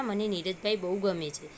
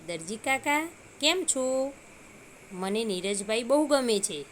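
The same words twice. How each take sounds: First: Said in the usual way. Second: A hint of a bright child greeting the tailor; cheerful little pocket. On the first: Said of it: "પેલા ખિસ્સાએ એવું કીધું કે". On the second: A narrator's reading. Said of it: "ખિસ્સું હસતા હસતા દરજીભાઈને કહે છે". (હળવો ખુશ બાળ અવાજ)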